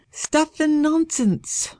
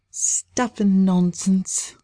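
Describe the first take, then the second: First: High, slow and firm dismissal; decided. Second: Dismissive. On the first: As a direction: brush it off decisively, high and slow. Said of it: "Lady Audrey said decidedly". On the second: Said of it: "pushed away his words". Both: Acted.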